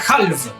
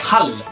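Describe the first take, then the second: First: The final V is fully pronounced. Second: The final V is not pronounced. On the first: The speaker calls it wrong. "No se pronuncia halv" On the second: The speaker calls it right. "se pronuncia hall"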